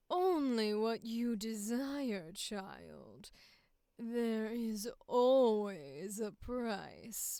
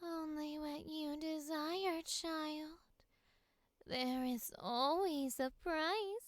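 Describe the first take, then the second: First: Final sultry take. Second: A touch higher, softer and slow; breathy high villain read; high-pitched sultry.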